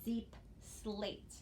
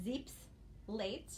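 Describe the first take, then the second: First: "zeep slate" with the s opening "slate"; split as zeep slate. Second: "zeep's late" with the s ending "zeep's"; split as zeep's late. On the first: Teacher contrasts two divisions, "zeep slate" split before the s. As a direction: slowly say "zeep", pause, then "slate". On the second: Teacher contrasts two divisions, "zeep's late" split after the s. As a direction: hold the s on "zeep's", pause, then "late". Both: Shown as a demonstration. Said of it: "it sounds a little different".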